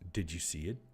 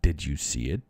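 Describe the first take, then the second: First: It is said in her normal voice. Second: It is said in a put-on male voice.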